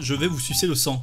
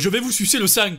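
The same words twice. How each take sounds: First: It is said in a neutral French accent. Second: It is said in a southern French accent.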